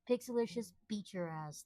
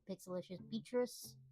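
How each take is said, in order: First: The ending is said as separate words 'beat your ass'. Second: The ending runs together to sound like 'Beatrice'. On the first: The speaker calls it right. "It is Pixelicious. Beat your ass" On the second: The speaker calls it wrong. "Most people pronounce it Pixelicious Beatrice"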